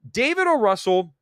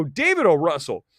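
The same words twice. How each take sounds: First: O jumps high in exasperation; ranting critic shouts the director's name; exasperated emphasis. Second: Said in the usual way. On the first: Real, not acted. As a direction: call out David O. Russell like a scolding.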